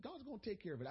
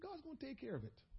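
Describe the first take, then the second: First: Casual, almost throwaway "God's gonna take care of it.". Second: Quiet, cautious "God's gonna take care of it.". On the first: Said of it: "I said it real casually". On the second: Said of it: "I cautiously say". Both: Retold or imitated.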